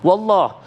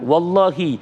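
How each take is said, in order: First: The word ends on 'h' with no final vowel. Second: The word ends with a short 'i' vowel. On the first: The oath is not clearly valid. The speaker calls it wrong. "itu belum jelas karena harokat kasrohnya" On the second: The oath is clearly valid. The speaker calls it right. "silakan wallahi"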